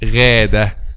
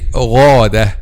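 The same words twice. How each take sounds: First: The first sound is light, with the tongue back lowered. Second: The first sound is heavy, with the tongue back raised. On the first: The speaker calls it wrong. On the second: The speaker calls it right. "you have to say"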